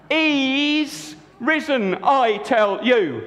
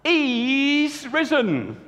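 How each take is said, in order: First: Joyful insistence. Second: High, very slow announcement; joyful news. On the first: Mary insists to the two men he is risen. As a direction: lean in and insist with joy. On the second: Mary announces to the two men he is risen. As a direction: draw out each word in wonder. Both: Acted. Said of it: "she said".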